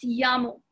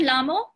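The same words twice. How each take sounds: First: "llamo" said YAH-mo; double L as Y. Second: "Lamo" said LAH-mo, with a hard English L; wrong plain L. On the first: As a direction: open "llamo" with a y sound, no l. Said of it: "it's llamo". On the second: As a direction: start "Lamo" on an l sound as the mistake. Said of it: "it's not Lamo". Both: Shown as a demonstration.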